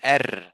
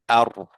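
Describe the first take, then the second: First: The R is light, with a thin, front vowel. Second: The R is heavy, with a full, dark vowel. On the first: The speaker calls it wrong. "I didn't say Er" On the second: The speaker calls it right. "So I say it like here in case of this one"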